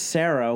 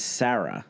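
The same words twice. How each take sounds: First: "Sarah" as SAIR-uh, pitched above the second; first pronunciation. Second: "Sarah" as SARR-uh, falling lower; second pronunciation. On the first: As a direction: say "Sarah" with the vowel of "air". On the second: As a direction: say "Sarah" with a short a as in "cat". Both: Retold or imitated. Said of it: "But they're pronounced differently".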